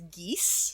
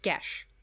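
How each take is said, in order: First: The word is said as geese. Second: The word is said as gesh. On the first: "there's also a pronunciation of this that is geese" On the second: "it's pronounced Gesh"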